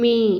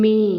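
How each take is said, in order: No difference in how they are said.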